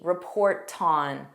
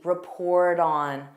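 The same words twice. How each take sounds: First: The t is a strong, clear t. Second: The t is a soft d sound. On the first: "in British English, they have a stronger T" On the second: "notice mine is that soft D"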